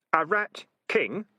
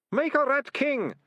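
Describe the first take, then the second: First: Slow, sharp questioning echo; sharply. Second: Very high, loud confessing wail; bursting out. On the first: Keith questioning the ratcatcher's confession, sharply. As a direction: repeat it as a sharp challenge. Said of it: "said Keith sharply". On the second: Deputy ratcatcher blurting his guilty secret, bursting out. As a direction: burst out with it in desperation. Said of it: "Ratcatcher Two burst out". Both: Acted.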